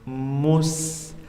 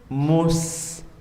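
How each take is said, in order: No difference in how they are said.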